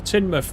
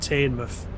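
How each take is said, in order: First: The first syllable does not sound like 'tain'. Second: The first syllable sounds like 'tain'. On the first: The speaker calls it right. "you taught me how to say Teignmouth" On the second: The speaker calls it wrong. "It does look like Tain. So I can get why people would say that wrong"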